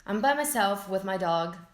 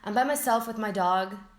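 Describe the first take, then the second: Both takes have the same delivery.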